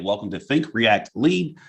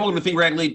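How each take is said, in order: First: The phrase is said slowly. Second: The phrase is said quickly. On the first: The speaker calls it right. "Now I say, ... Say it slow" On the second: The speaker calls it wrong. "I used to say"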